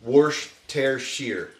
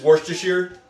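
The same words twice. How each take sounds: First: "Worcestershire" drawn out slowly in three parts, worsh-tair-sheer; careful, slow "Worcestershire", middle said like "tair"; slow syllable breakdown. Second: "Worcestershire" run together quickly as wor-stuh-sheer, pitched up; quick "Worcestershire" with a reduced middle; said fast. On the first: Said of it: "that long A becomes like a air". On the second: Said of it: "when you say it fast". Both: Shown as a demonstration.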